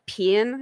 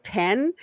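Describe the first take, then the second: First: "pin" with a short i, Southern merger; Southern pen as pin. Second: "pen" with a clear e vowel; standard pen. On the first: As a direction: say "pin" for pen, Georgia style. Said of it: "people would say, like". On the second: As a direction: say "pen" the usual way, open e. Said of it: "instead of". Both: Shown as a demonstration.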